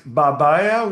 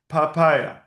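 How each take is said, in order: First: Babaya with two B sounds; as written, with B. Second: Papaya with two P sounds; as read, with P. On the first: Teacher showing student the Arabic spelling, babaya with B's. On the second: Teacher showing student how it is read, papaya with P's. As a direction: make both consonants in papaya P's. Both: Shown as a demonstration. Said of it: "we read papaya".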